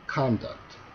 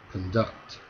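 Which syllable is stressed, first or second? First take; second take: first; second. First: The stress is on the first syllable. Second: The stress is on the second syllable. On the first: It is a noun. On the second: It is a verb.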